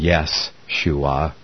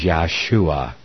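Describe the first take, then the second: First: The first syllable sounds like yeh. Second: The first syllable sounds like yah. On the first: The speaker calls it wrong. "pronouncing it with a yes type sound instead of a Yah" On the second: The speaker calls it right. "It was Yahshua"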